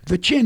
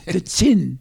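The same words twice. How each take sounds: First: It is said in a plain English accent. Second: It is said with a put-on French accent. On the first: The speaker calls it wrong. "I said" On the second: The speaker calls it right. "not the chin. The chin"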